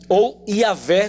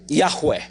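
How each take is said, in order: First: The name is said in a Portuguese-like way. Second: The name is said in a Hebrew-like way. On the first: "como se diz de forma assim mais aportuguesada" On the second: "quando você pronuncia a maneira mais próxima do original"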